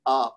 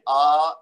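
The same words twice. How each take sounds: First: The vowel is kept short. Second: The vowel is drawn out long. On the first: The speaker calls it right. "बल्कि पढ़ना है हमजा जबर आ" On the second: The speaker calls it wrong. "आ ऐसे नहीं पढ़ना"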